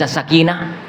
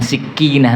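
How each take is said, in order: First: The first vowel is 'a'. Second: The first vowel is 'i'. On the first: It means calmness. The speaker calls it right. "Ini kalau dibaca sakinah" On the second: It means a small knife. The speaker calls it wrong. "bukan sikinah"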